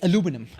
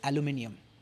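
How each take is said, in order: First: The word is said the US way. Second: The word is said the UK way. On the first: "the U S pronunciation is" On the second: "The U K pronunciation or the Indian pronunciation is"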